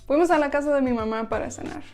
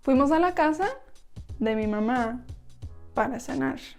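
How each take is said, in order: First: The sentence is spoken at normal speed. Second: The sentence is spoken slowly.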